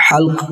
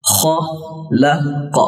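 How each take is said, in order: First: حلق with a smooth breathy h, no rasp; breathy h sound. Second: خلق with a long, rasping throat kh; Arabic kh sound. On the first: Teacher showing viewers the contrasting h, plainly. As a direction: say حلق with a clean airy h from the throat. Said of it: "اب اگر اسے پڑھا جائے حلق". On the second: Teacher showing viewers the dotted kh, drawn out. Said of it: "خ نقطے والی". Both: Shown as a demonstration.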